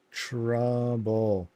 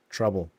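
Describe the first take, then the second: First: "Trouble" stretched out slowly, syllable by syllable; drawn-out mock reading. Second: Said in the usual way. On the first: Shown as a demonstration. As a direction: draw "Trouble" out long, as if reading it carefully. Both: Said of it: "I read it perfectly".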